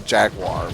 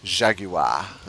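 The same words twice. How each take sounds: First: It is said with an American pronunciation. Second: It is said with a posh British pronunciation. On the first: "in America, we say jaguar, which sounds you know terrible" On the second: "it really makes it sound like a sexy word"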